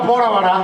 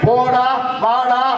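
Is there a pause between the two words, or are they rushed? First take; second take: rushed; pause. First: The words are run together quickly without pause. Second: The words are separated by a clear pause. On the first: "அவசரத்துல" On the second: "உங்களை மாதிரி நிறுத்தி"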